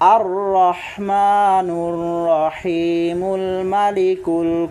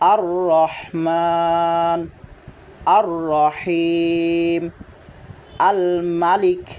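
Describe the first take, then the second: First: The names run together with linking endings. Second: The names are separated, each said on its own. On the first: "তবে খুব সুন্দর এবং বিশুদ্ধ হবে" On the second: "একটি একটি করে ভেঙে ভেঙে"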